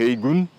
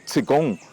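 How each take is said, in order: First: The word is pronounced the Cantonese way, heigun. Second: The word is pronounced the Mandarin way, qigong. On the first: "Se formos pronunciar em cantonês" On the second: "pronunciada no mandarim"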